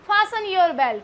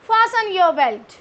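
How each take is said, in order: First: The t in fasten is silent. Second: The t in fasten is silent.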